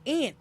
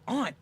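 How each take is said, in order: First: "aunt" pronounced ANT. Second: "aunt" pronounced AHNT. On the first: Showing how we say it, "aunt" as "ant". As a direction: say "aunt" with the short vowel of "ant". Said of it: "We say aunt". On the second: Showing how they say it, "aunt" as "ahnt". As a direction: say "aunt" with a broad ah vowel. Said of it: "They say aunt". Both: Shown as a demonstration.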